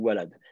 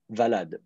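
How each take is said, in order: First: "walad" with an initial W glide; W pronunciation. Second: "valad" with an initial V; V pronunciation. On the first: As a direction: open "walad" on a rounded W, not a V. (« walad » avec un W au début) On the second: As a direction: say "valad" with V in place of W. (« valad » avec un V au début) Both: Shown as a demonstration. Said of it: "si vous prononcez le W par un V".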